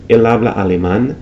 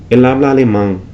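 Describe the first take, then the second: First: Said in the usual way. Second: Alemán ending in a nasal ng, alemang; final n of alemán pulled back to ng; velarized n. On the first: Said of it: "instead of". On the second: Shown as a demonstration. Teacher imitating Dominican velar n. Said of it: "you might hear".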